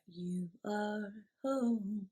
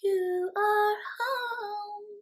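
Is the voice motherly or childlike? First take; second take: motherly; childlike. First: It is said in a comforting, motherly voice. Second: It is said in a young, childlike voice.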